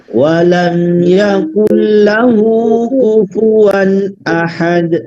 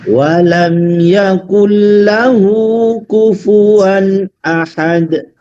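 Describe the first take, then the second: No difference in how they are said.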